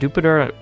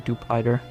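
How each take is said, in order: First: The name sounds like the planet Jupiter. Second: The name's ending sounds like 'spider'. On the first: The speaker calls it right. "like Jupiter" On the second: The speaker calls it wrong. "the Pider from Spider"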